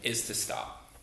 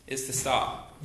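First: Whispered, hushed emphasis; breathy whispered is to stop. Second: Said in the usual way. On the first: Shown as a demonstration. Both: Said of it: "the first thing that Jesus tells us".

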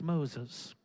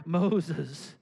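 First: Soft, low call; the Lord calling. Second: Firmer, drawn-out call of the name; insistent calling. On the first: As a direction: say the name softly and low. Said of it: "when the Lord says it twice". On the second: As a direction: call the name out longer to someone not hearing. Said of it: "I don't hear the Lord". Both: Acted.

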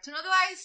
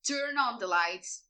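First: High-pitched imitation of a panicky plea; urgent plea. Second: Said in the usual way. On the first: Characters finding the dark penthouse, acted urgent plea. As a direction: raise the pitch as if pleading for light.

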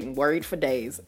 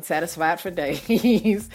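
First: Said in the usual way. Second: Slow, drawn-out with a laugh. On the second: Shown as a demonstration. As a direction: savour it, chuckling. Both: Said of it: "I, I mean".

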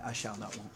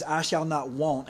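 First: "I shall not want" said much softer and lower, savoring; savoring King James. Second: Slow, deliberate reading of "I shall not want"; slow scripture quote. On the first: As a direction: murmur "I shall not want" low and soft, relishing the old words. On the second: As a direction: weigh each word of "I shall not want" slowly. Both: Shown as a demonstration. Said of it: "It just sounds really good in King James".

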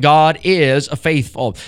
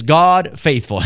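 First: Said in the usual way. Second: God faithful, the word is dropped, said slowly; demo without is. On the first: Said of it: "It's a definite statement". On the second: Shown as a demonstration. Preacher showing the verse without the italic is, slowly. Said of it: "if you wanted to say it like this".

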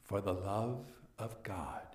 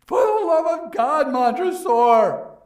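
First: Montresor's chilling reply; cold quiet echo. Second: Shrieked high and loud; a doomed man's last scream; desperate scream. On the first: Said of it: "I said". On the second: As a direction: cry out for your life. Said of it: "walled-in victim's final plea". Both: Acted.

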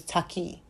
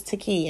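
First: "Taki" with an open "ah", TAH-kee; Japanese pronunciation. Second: Said in the usual way. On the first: Shown as a demonstration. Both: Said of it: "In Japanese".

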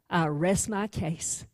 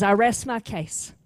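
First: Low, soft and slow with a smug edge; quiet gloating close of the case; smug prosecutor. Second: Said in the usual way. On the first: Acted. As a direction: savor it like he's already won. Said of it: "And he snickers".

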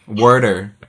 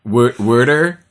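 First: Boston accent. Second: "Wa-, water" with a broad wah vowel, Boston accent; Boston "water" stretched, wah-ter. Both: Shown as a demonstration. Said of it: "that thick Boston accent".

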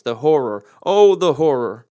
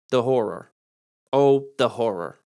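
First: Louder, slow, theatrical cry of horror; big over-the-top stage despair; hammed-up dramatic wail. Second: A touch of theatrical dread, slower on the second phrase; understated stage despair; mild dramatic lament. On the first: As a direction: belt it out like a tragic actor. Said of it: "you've repeated the horror twice". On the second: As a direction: lightly ham up the line. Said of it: "Or what about the old". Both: Shown as a demonstration.

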